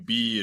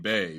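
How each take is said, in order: First: The vowel is a long ee sound. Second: The vowel is an ay sound. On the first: The speaker calls it wrong. "B is like honey bee" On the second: The speaker calls it right. "honey, that's Bay"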